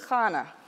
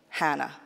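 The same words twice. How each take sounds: First: The name is said with a Hebrew pronunciation. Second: The name is said with an American pronunciation. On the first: This is the form heard in religious services. "you might hear it pronounced as Hannah. That's more of a Hebrew pronunciation" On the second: This is the everyday form used in America. "as we would say it in America"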